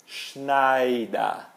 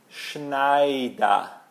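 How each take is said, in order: No difference in how they are said.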